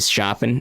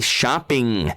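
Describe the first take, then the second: First: The final G sound is dropped. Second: The final G sound is pronounced. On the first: The speaker calls it wrong. "I used to say shopping" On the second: The speaker calls it right. "I need to say it with my G's"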